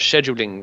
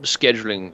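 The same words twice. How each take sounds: First: It is said with a British pronunciation. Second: It is said with an American pronunciation.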